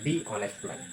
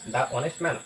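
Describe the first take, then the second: First: 'The' is said with a long 'thee' vowel. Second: 'The' is said with a short 'thuh' vowel. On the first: The speaker calls it right. "এখানে দি honest" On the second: The speaker calls it wrong. "It's আ not correct"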